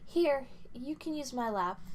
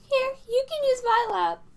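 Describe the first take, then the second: First: It is said in a normal-pitched voice. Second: It is said in a high-pitched voice.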